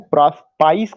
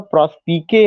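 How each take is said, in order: First: The word ends with a 'spice' sound. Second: The word ends with a 'spee-keh' sound. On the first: The speaker calls it wrong. "कुछ लोग उसका प्रोनाउंसिएशन प्रॉस्पाइस करेंगे, प्रॉस्पाइस उसका प्रोनाउंसिएशन नहीं है" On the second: The speaker calls it right. "उसका प्रॉस्पिके है"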